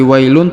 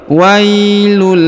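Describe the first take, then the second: First: The word ends with a clear n sound. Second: The final n merges into an l sound. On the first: The speaker calls it wrong. "bukan lagi wailun" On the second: The speaker calls it right. "tapi wailul lil"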